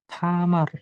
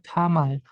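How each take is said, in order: First: The word ends with an r sound. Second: The word ends with an l sound. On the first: The speaker calls it wrong. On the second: The speaker calls it right. "dibacanya Tamal"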